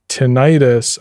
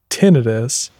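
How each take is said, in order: First: The word ends with an 'itis' sound. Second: The word does not end with an 'itis' sound. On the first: "Tinnitus almost sounds like it's an inflammation of your tin" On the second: "audiology grad school where people only said tinnitus"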